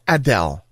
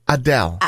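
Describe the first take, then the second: First: The first vowel is an open 'ah' sound. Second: The same.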